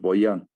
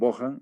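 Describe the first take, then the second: First: The middle consonant is a y sound. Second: The middle consonant is a harsh h sound. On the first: "lo pronunciaban como I, entonces Boyan" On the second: "otros pronunciaban Bojan"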